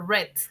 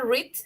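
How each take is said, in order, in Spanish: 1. La vocal es corta, como en 'red'. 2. La vocal es larga, como en 'reed'. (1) "en pasado se dice red, como el color rojo" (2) "Uno se dice read"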